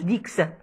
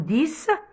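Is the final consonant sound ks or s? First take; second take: ks; s. First: The word ends with a ks sound. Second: The word ends with a plain s sound. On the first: The speaker calls it wrong. "ما نقولوش ديكس" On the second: The speaker calls it right. "نقولو ديس سيس"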